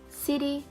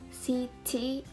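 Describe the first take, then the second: First: The middle t is a quick d-like flap. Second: The middle t is a crisp, aspirated t. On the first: The speaker calls it right. "but we pronounce it as" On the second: The speaker calls it wrong. "we don't pronounce it as"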